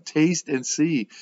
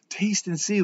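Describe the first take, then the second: First: "Taste and see" drawn out slowly, each word weighted; slow, deliberate "Taste and see"; slow stress. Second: "Taste and see" pitched higher, peaking on "see"; bright raised "Taste and see"; lifted emphasis. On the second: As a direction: lift "see" up high in "Taste and see". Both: Shown as a demonstration. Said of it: "like this is tangible".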